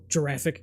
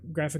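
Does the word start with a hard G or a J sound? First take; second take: J sound; hard G. First: It starts with a J sound, like giraffe. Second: It starts with a hard G sound.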